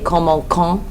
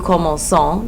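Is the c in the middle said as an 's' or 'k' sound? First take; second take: k; s. First: The middle c is said with a k sound. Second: The middle c is said with an s sound. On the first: The speaker calls it wrong. "how a French person would read this if it didn't have the cedille ... a k sound" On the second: The speaker calls it right. "to make it have a s sound instead of a k sound"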